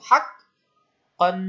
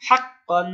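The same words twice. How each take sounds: First: হাক্কান drawn out very slowly, the ক্ক held hard; slow model recitation. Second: Said in the usual way. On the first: Shown as a demonstration. (হাক্কান খুব ধীরে টেনে উচ্চারণ) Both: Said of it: "একবার হেল্প করলো দ্রুত".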